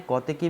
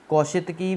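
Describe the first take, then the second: First: "कौतिकी" with no sh sound, kau-ti-ki; shorter variant pronunciation. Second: "कौशितकी" with a sh syllable, kau-shit-ki; longer variant pronunciation. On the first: Teacher showing students the direct way, shorter variant "कौतिकी" without sh. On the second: Teacher showing students an accepted way, longer variant "कौशितकी" with sh. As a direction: say "कौशितकी" with "shi" inside. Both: Shown as a demonstration. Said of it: "ये pronunciation करने का एक तरीका है".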